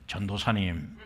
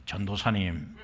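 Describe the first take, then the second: First: It sounds stiff and distant. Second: It sounds stiff and distant.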